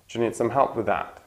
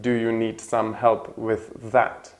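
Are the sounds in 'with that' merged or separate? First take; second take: merged; separate. First: The th and z merge into one sound. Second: The th and z are said as separate sounds. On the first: "it sounds like just one sound" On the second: "It's quite different from"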